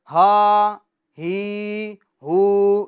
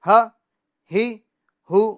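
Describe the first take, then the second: First: The vowels are stretched out long. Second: The vowels are cut off with a jerk. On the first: "हरकत को खींचना नहीं है, यानी हा ही हु ये गलत है" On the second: "ये झटका भी हमें नहीं देना है"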